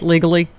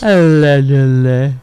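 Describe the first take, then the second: First: The word is slurred, its first syllable swallowed. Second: The word is said fully, every syllable distinct. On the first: The speaker calls it wrong. "I think you have to say it a little more clearer than that" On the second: The speaker calls it right. "That was a little more clearer"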